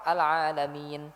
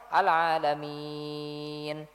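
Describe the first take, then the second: First: The vowel before the final n is held briefly. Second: The vowel before the final n is held very long. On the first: "kalau dua harokat" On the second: "Atau enam harokat sekalian"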